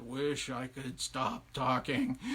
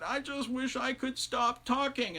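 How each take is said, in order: First: Low, very slow echo; drawn-out low mimicking echo; echoing well voice. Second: High, slow, weary wail; drawn-out high plea, a touch ragged; ragged wife. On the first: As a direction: intone it slowly from deep in a well. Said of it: "the voice in the well said". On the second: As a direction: wail it out, worn from endless talking. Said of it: "her voice was so ragged". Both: A narrator's reading.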